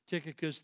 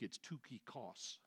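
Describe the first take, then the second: First: The name is said the usual English way. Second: The name is said the Greek way.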